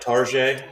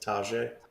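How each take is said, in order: First: The first syllable has an r, like 'tar'. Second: The first syllable has no r, like 'tah'. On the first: The speaker calls it wrong. "not like Tarjay, like we're not going to Target" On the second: The speaker calls it right. "but it's Tajay"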